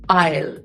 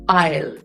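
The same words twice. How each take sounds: First: The word is said with one syllable. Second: The same.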